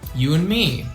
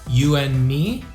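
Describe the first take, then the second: First: 'And' shrinks to a bare N sound. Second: 'And' keeps its vowel but drops the D. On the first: "we drop the A sound also, so it just becomes the mm, like this" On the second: "just drop the D"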